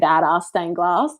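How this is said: It is said with an Australian accent.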